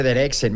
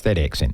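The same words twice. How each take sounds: First: Said in the usual way. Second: "that accent" dropped low with a falling tune; low emphatic. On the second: Shown as a demonstration. Host to Belfast guest, "that accent" dropped low and emphatic. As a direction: lean on "that" and let "that accent" fall deep. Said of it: "just listening to that accent".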